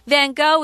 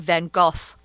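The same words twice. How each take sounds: First: The name is said the American English way. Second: The name is said the Dutch way.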